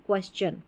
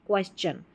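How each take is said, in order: Both takes have the same delivery.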